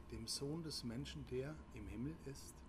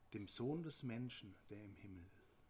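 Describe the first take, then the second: Both takes have the same delivery.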